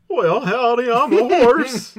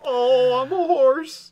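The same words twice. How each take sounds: First: Very high, loud, slow howdy horse; hee-haw it like a cartoon horse; cowboy horse voice. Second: Very high, loud horse squeal; cartoon horse voice. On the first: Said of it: "let me do my impression". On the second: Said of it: "not just play a clip of a horse".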